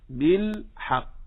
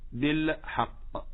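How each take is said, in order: First: Slow بالحق with a smooth, unbounced ل; still lam. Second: Slow بالحق with an echo breaking after the ل; bouncing lam. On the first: Teacher gives the correction, still lam in بالحق. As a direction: hold the ل of بالحق cleanly into ح. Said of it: "إنما قل". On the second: Teacher shows what not to say, bouncing lam. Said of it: "فلنحذر من قلقلة اللام". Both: Shown as a demonstration.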